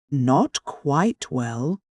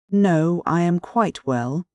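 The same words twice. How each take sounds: First: Slow, drawn-out disbelieving echo; mock astonishment at a friend's claim; incredulous echo. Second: A touch of angry rudeness from a sick man; rude angry snap. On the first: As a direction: echo his words back, stretching them in disbelief. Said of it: "Razumihin caught him up". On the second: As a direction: bite the words off angrily, dropping his act. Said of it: "snapped out rudely and angrily". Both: A narrator's reading.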